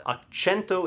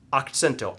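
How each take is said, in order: First: Accento said "ak-CHEN-to"; ak-CHEN-to, ch as in "cheese". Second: Accento said "ak-TSEN-to"; ak-TSEN-to, ts as in "cats". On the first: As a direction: say accento with ch starting the stressed syllable. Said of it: "with a foreign cho". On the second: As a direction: stress the second syllable of accento, "sent" with a ts. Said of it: "I sent the accent to the second syllable". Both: Shown as a demonstration.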